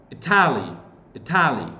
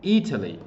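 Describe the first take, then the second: First: "Italy" said ih-TAL-ee, flat a and stress on the second syllable; wrong pronunciation. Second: "Italy" as IT-uh-lee, stress on the first syllable; correct pronunciation. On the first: Teacher shows students the wrong way: "Italy" stressed as ih-TAL-ee. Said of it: "that's wrong". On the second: Teacher gives students the right model: "Italy" as IT-uh-lee. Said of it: "You have to say Italy". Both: Shown as a demonstration.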